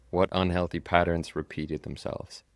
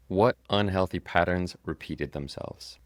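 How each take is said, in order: Both takes have the same delivery.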